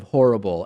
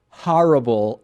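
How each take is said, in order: First: Said in the usual way. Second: "horrible" with an open "ah", as HAR-ible; New York pronunciation. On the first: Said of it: "instead of horrible". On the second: Retold or imitated. Host showing how Howard Stern says it, "horrible" as HAR-ible. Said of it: "he still says horrible instead of horrible".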